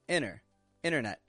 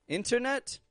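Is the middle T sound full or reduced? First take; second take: reduced; full. First: The T sound is quick, quiet and reduced. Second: The T sounds are clearly and fully pronounced. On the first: "if you get it quick and quiet" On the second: "you say true T's on there"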